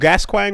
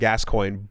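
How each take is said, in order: First: The name is said with a French-style pronunciation. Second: The name is said with an English pronunciation. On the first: The speaker calls it wrong. "was super wrong" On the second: The speaker calls it right. "it was one hundred percent Gascoigne"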